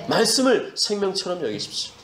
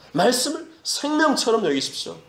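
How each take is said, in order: First: Said in the usual way. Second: "말씀을 생명처럼" pitched high; urgent, higher-pitched exhortation on "생명처럼"; emphatic repeat. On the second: Real, not acted. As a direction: drive home "생명처럼" in a raised preaching pitch. Preacher repeats exhortation more urgently.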